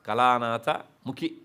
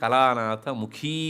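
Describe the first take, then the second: First: The final vowel is cut short. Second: The final vowel is held long. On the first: The speaker calls it wrong. "ಅಲ್ಲ" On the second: The speaker calls it right. "ದೀರ್ಘ ಹೇಳಬೇಕು"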